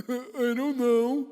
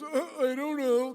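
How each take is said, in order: First: Loud, high, drawn-out mock I-don't-know; exaggerated dopey shrug. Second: Loud, high mimicking jeer; mocking parrot-back. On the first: Husband answering his wife about his lost voice, hammed-up cluelessness. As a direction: ham up a slow, clueless shrug. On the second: Wife mocking her husband right back, exaggerated mimicry. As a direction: throw the words back in exaggerated mockery. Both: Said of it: "She just mocked me right back".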